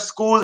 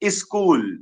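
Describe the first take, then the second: First: The s cluster is said in a standard way. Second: The s cluster is said in a regional way. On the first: "instead of school" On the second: "they will say school"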